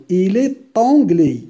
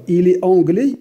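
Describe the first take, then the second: First: "Il est anglais" with the t of "est" sounded, il-es-T-anglais; liaison in il est. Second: Said in the usual way. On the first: Shown as a demonstration. Teacher showing the class the liaison, "est" joined to "anglais" by a t. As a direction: link "est" to "anglais" with a clear t. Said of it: "regarde la liaison". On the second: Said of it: "On ne prononce pas S".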